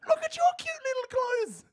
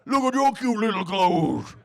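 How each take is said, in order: First: It is said in a high-pitched voice. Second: It is said in a low, deep voice.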